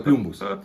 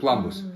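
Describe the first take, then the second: First: The word is pronounced with Russian sounds. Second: The word is pronounced with English sounds. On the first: "По-русски это" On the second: "по-английски это"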